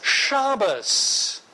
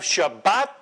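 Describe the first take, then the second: First: It ends with an s sound, Ashkenazi pronunciation. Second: It ends with a t sound, standard pronunciation.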